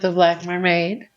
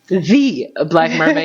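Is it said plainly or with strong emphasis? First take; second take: plainly; strong emphasis. First: It is said plainly, without extra emphasis. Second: It is said with strong, heavy emphasis.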